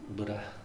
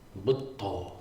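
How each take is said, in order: First: A short, plain d with no held consonant. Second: A held double d with aspiration. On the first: This is the common American pronunciation. "Americans, I think, refer to him as the Buddha" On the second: This is closer to the original Pali pronunciation. "if you ask a Thai person ... they'll say Buddha"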